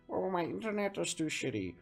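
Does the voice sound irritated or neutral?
irritated. It is said in an irritated voice.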